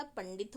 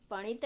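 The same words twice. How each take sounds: First: पंडित said with a clear ड after the न; teacher gives पंडित as the right way, ड said fully; correct form. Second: पणित said with no ड, as पणित; teacher gives पणित as the wrong way, dropping the ड; wrong form. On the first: Teacher shows students the correct form, पंडित with a clear ड. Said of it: "पंडित होता है". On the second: Teacher shows students the wrong spoken form, पणित without ड. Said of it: "नहीं होता". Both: Shown as a demonstration.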